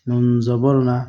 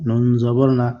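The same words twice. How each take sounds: No difference in how they are said.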